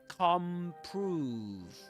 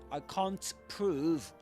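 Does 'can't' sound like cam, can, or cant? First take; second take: cam; cant. First: The n becomes an m before prove. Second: The T in can't is fully pronounced. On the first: "you can even say come prove" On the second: "rather than saying"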